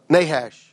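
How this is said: The name is said in a Southern US way. "How do we pronounce it in the South?"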